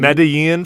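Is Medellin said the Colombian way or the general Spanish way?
general Spanish. It is said with a general Spanish pronunciation. "Medellin for Spanish speakers"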